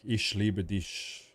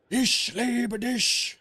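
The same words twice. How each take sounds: First: Said in the usual way. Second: High, drawn-out angry yelp; mock angry German. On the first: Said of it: "all about being angry in every "I love you". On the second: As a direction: imitate a wife's furious German love declaration, stretched out and high. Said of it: "That language is all about being angry".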